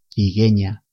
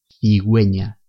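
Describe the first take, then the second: First: The middle syllable starts with a hard g. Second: The middle syllable starts with a gw sound. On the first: The speaker calls it wrong. "Si no utilizamos la diéresis, al leer estas palabras diríamos cigueña" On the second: The speaker calls it right. "se pronuncian we y wi"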